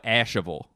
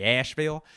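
First: Asheville said in three syllables, ASH-uh-vul; local pronunciation. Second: Asheville said as two clipped syllables, ASH-vil; outsider pronunciation. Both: Shown as a demonstration. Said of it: "that's how the locals pronounce it".

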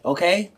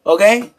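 First: Said in the usual way. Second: A pushed, louder Okay? thrown out as a challenge; louder insistent okay. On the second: Real, not acted. Streamer pressing his viewers to accept the point, louder. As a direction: hit the second Okay? harder and louder, demanding agreement.

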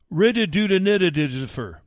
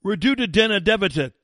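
First: Mocking Biden's garbled teleprompter reading; mock slurred mumble. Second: "Reduce the deficit" said clearly and louder, higher; setting the garble straight, emphatic; clear correction. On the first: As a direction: garble the words together, higher and louder, mocking. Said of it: "I know he meant reduce the deficit". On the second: Shown as a demonstration. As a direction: spell out "Reduce the deficit" crisply, each word distinct. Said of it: "That's what I heard".

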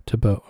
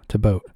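No difference in how they are said.

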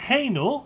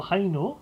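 First: "[name]" said as "Eino" with no H, rising; first way to say it. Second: "[name]" with a clear H, as "Heyno"; second way to say it. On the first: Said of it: "or [name]". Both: Shown as a demonstration.

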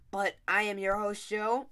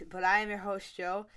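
First: Hiccups. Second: Said in the usual way. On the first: Real, not acted. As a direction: voice jolted by a hiccup. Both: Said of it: "I have the hiccups".

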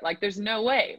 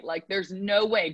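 First: Said in the usual way. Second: Same words again, slowed right down; slowed emphasis. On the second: Shown as a demonstration. Coach repeating to the athlete, slow and firm. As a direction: drag it out slowly to drive it home.

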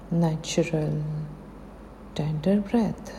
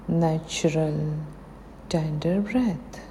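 The two takes are said the same way.

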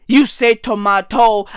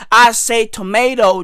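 First: "tomato" as to-MAH-toe; British tomato. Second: "tomato" as to-MAY-doe; American tomato. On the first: Comic showing your way, "tomato" as to-MAH-toe. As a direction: say "tomato" with an AH in the middle. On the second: Comic showing his way, "tomato" as to-MAY-doe. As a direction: say "tomato" with an AY and tapped t. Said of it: "tomato is American as fuck". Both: Shown as a demonstration.

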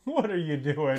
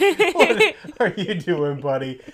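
First: Higher, laughing mock question; playful incredulous question; amused disbelief. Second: High, loud, drawn-out laughing question; escalated comic incredulity; exasperated disbelief. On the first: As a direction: react baffled through laughter. Mock reaction to overacted scene. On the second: Acted. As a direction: wail it in mock bafflement. Repeats mock reaction, escalating.

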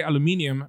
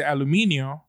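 First: "aluminium" ending in -ee-um; English pronunciation. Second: "aluminio" ending in -ee-oh; Spanish pronunciation. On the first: Contrasting English with Spanish, "aluminium" ending in -ium. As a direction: say "aluminium" with a final M. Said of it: "we don't say aluminium, but we say aluminio". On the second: Showing the Spanish word, "aluminio" with open -io ending. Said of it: "but we say aluminio". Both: Shown as a demonstration.

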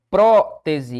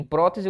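First: "Prótese" as loud PRÓ, then te-se; syllable split. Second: Said in the usual way. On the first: Shown as a demonstration. Teacher showing the stressed syllable, "Prótese" split PRÓ-tese. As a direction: punch the first syllable of "Prótese" and detach it. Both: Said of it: "o que eu tenho é isso aqui".

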